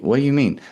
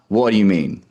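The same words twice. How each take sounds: First: The question is asked in a curious tone. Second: The question is asked in an uninterested tone. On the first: The asker genuinely wants to hear more. The speaker calls it right. "You got to ask curiously" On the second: The asker does not really want to hear more. The speaker calls it wrong. "Not what do you mean"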